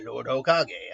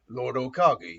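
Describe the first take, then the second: First: The voice is lighter and less gruff. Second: The voice is deep, gruff and worn. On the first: The speaker calls it wrong. "Danzo ultimately sounded a bit more like this" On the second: The speaker calls it right. "a gruff, deeper voice"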